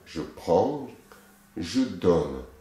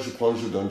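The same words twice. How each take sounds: First: The phrase is said slowly, with deliberate intensity. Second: The phrase is said quickly, in a rushed run. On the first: The movement is done with full sensation. The speaker calls it right. "C'est vraiment je prends avec bien la sensation" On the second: The movement is hurried without feeling. The speaker calls it wrong. "elle ne va pas à deux cents à l'heure. C'est pas"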